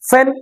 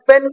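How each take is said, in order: First: The p is aspirated, with a puff of air. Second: The p is plain, without a puff of air. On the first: The speaker calls it right. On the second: The speaker calls it wrong.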